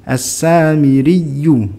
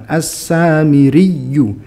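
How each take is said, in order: The two takes are said the same way.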